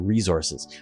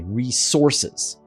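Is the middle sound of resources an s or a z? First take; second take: z; s. First: Canadian way, middle sound is a z. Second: American way, middle sound is an s.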